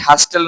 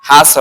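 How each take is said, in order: First: The t sound is pronounced in the middle. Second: The t sound is silent in the middle. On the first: The speaker calls it wrong. "নট" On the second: The speaker calls it right. "টি silent থাকবে"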